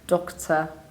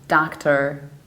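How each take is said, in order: First: It has a short O and a reduced ending. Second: It is said in an American accent. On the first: "In the British accent, we say do with a short O, and we reduce the ending" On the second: "in the American accent"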